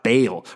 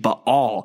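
First: The name is pronounced the usual English way. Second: The name is pronounced in a Hebrew-like way.

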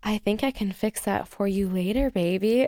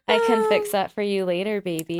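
First: It is said in a seductive, sexy voice. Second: It is said in a casual everyday voice.

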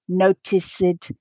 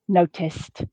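First: The word has three syllables, with an added ed syllable. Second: The word has two syllables, ending in a t sound. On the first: The speaker calls it wrong. "pronounce that letter E and create an additional syllable" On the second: The speaker calls it right. "the base form has the same number of syllables as the past tense ed form"

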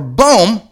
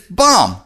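First: The vowel is a long 'oo' sound. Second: The vowel is a short 'o' sound. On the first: The speaker calls it wrong. "which you would think it would be boom" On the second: The speaker calls it right. "but it's bomb"

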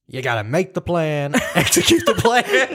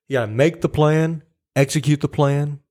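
First: It is said in an imitated character's voice. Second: It is said in the speaker's own normal voice. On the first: "His voice is just more like" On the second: "I wasn't going to like try to do his voice"

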